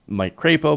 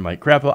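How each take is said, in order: First: The name's first part does not sound like 'crap'. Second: The name's first part sounds like 'crap'. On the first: The speaker calls it right. "it's Mike Crapo" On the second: The speaker calls it wrong. "I know that's not how you say it"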